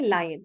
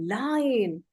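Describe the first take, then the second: First: The word is said plainly, without extra energy. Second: The word is said with big, exaggerated energy. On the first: The speaker calls it wrong. "You don't say lion" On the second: The speaker calls it right. "You say lion. You exaggerate"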